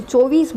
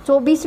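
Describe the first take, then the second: First: चौबीस said as "चौईस", dropping the b; local Dhundhari pronunciation. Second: चौबीस with a clear b, "चौ-बीस"; standard pronunciation. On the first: Retold or imitated. Teacher shows students the local चौबीस. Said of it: "चौबीस बोलते थे". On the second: Shown as a demonstration. Teacher corrects the local form for students. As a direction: say चौबीस fully with the b. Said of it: "चौबीस भी नहीं".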